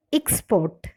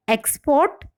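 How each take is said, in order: First: Export stressed on the second syllable, ik-SPORT; verb stress. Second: Export stressed on the first syllable, EX-port; noun stress. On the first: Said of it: "the stress falls on the second syllable". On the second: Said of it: "nouns or adjectives are stressed on". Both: Shown as a demonstration.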